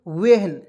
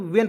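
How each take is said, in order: First: वेहन said wrongly, with a breathy h sounded after the v, a touch louder; wrong pronunciation. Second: वेन said cleanly as one syllable, silent h, like English when; correct pronunciation. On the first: Teacher showing students the wrong reading, वेहन with a sounded h. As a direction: sound out वेहन with the h voiced, as the mistake to avoid. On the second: Teacher giving students the right reading, वेन with no h. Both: Shown as a demonstration. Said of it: "इसको वहेन नहीं पढ़ेंगे".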